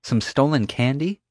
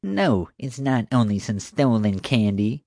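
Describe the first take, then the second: First: High rising disbelief; as if it can't be that small; incredulous. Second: Mocking singsong copy of Summer; rude mimicry. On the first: Summer scoffing at the candy theft, incredulous. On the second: Marge mocking Summer's question, rude mimicry. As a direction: throw her words back at her. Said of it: "Marge mimicked rudely". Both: A narrator's reading.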